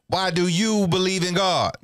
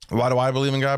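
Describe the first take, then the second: First: It is said in a put-on character voice. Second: It is said in his normal voice.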